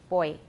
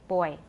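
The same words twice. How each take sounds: No difference in how they are said.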